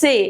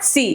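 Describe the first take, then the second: First: The letter is said like 'tse'. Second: The letter is said like 'see'. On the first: The speaker calls it right. "It's से" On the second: The speaker calls it wrong. "Not सी"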